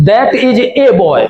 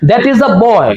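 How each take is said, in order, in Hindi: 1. पूरा 'that is', article 'ay' बोला जाता है। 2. पूरा 'that is', article 'uh' बोला जाता है। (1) "ज्यादातर बच्चे इस तरीके से पढ़ते हुए मिलेंगे" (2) "सही प्रोनाउंसिएशन"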